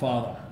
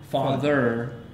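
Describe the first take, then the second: First: The final R sound is dropped. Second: The final R sound is clearly pronounced. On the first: The speaker calls it wrong. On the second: The speaker calls it right.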